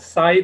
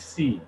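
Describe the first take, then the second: First: The vowel sounds like 'eye'. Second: The vowel sounds like 'ee'. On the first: This is the English way of reading it. The speaker calls it wrong. "Bukan psi" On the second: This is the original Greek way of reading it. The speaker calls it right. "tapi C"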